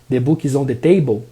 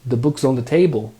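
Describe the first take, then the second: First: The words book and is are said separately. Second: The words book and is are contracted together. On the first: "e não the book is on the table" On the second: "se eu falo the book's on the table"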